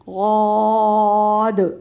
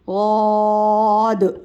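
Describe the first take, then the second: First: It begins with a heavy, emphatic d sound. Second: The same.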